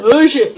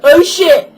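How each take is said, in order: First: Said in the usual way. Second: Loud, high startled curse; retold startled curse. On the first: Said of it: "he just went". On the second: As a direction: blurt it out in shock. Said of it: "he went".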